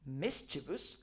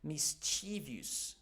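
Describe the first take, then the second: First: It is said with a British pronunciation. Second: It is said with an American pronunciation. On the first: "if we are talking about U K English, the proper pronunciation" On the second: "you want to adopt the American English pronunciation"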